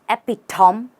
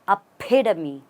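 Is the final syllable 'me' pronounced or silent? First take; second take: silent; pronounced. First: The final 'me' syllable is left silent. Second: The final 'me' syllable is clearly pronounced. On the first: The speaker calls it wrong. "Now there is nothing silent here" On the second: The speaker calls it right. "You stress on the P and you pronounce the me"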